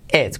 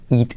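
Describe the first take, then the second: First: "et" con e abierta y corta. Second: "eat" con i cerrada y larga. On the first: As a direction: di "et", la i hecha e. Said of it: "pero se dice et". ("et" más grave, con e española) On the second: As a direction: di "eat" como "iit". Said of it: "si decimos eat". ("eat" con una i clara) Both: Shown as a demonstration.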